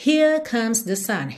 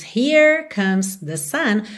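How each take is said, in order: First: Here with no R, the vowel stretched long; British Here. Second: Here with a rolled American R; rhotic Here. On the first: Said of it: "alongamento da vogal". ("Here" sem R, com vogal alongada) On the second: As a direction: Here said with the R curled at the end. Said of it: "ao invés de termos". ("Here" com R enrolado) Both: Shown as a demonstration.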